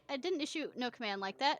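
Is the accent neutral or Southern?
neutral. It is spoken without a Southern accent.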